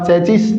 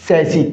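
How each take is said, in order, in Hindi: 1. शब्द का अंत एक उच्चारित 's' ध्वनि से होता है। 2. शब्द स्वर पर समाप्त होता है, अंतिम 's' मौन है। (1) "नो साथियों" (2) "करेक्ट प्रोनाउंसिएशन"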